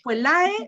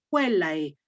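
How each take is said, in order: First: The stress is on the final syllable. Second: The stress is on the second syllable. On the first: The speaker calls it wrong. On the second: The speaker calls it right.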